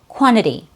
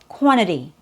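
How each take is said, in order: First: The first t drops and the second is flapped. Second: The first t drops and the second is flapped.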